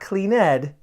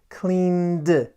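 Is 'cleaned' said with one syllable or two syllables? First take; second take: two syllables; one syllable. First: It has two syllables, with a vowel before d. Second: It has one syllable, n going straight to d. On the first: The speaker calls it wrong. "Not cleaned" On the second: The speaker calls it right. "N, d. ... the N skips over the E and we go to that D sound"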